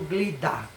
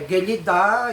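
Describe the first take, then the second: First: The g and l run together with no vowel. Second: A short vowel is heard between g and l. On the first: "muito falado Glidá"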